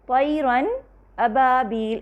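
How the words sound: There is a brief break after the n. The speaker calls it wrong.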